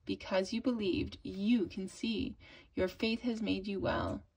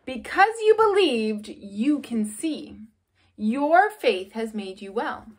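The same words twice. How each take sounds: First: Said in the usual way. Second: Solemn, emphatic, slowed-down quote; emphatic reading. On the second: Shown as a demonstration. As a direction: read it out slowly so the girls remember it. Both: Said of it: "I'm gonna read this".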